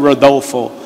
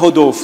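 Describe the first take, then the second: First: The name is said with an American English accent. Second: The name is said with a Brazilian Portuguese accent. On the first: "Se eu fosse ministrar na América" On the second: "Se você pregasse no Brasil"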